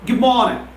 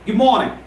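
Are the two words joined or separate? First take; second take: joined; joined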